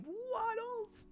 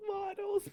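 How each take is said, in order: First: High gleeful cry of the name; excited shout. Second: High, very loud squeal of joy; louder excited shout. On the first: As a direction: call the name out with delight. Excited greeting of the pig. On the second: Repeats the name even louder. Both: Real, not acted.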